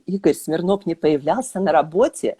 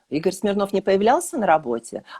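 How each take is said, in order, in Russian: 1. Произносится с удивлённой интонацией. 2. Произносится как вопрос. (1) "с удивлением" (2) "с вопросом"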